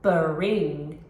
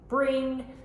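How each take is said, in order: First: A short uh vowel separates the b and r. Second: The b and r are joined without a vowel. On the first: The speaker calls it wrong. "when a child inserts a schwa, it would sound like this" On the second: The speaker calls it right. "brr would be bring"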